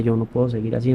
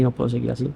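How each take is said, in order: First: Said in the usual way. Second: No puedo seguir así said softer, fading out; echoing his own words, much softer; quiet despair. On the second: Retold or imitated. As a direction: let the repeat sink to a hushed murmur. Repeats despairing self-talk.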